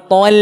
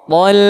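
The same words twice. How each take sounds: First: "tol" with the l pulled too far back. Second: "Tol" with the l only a little back; slightly retracted. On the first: Teacher shows the error, "tol" with over-retracted l. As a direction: swallow the l of "tol" backwards. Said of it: "jangan terlalu ke belakang". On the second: Teacher shows the right amount, "Tol" with slight retraction. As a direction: hold the l of "Tol", barely pulled back. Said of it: "sedikit aja". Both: Shown as a demonstration.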